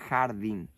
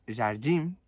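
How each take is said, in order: First: The j has a strong Spanish sound. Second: The j has a soft Portuguese sound.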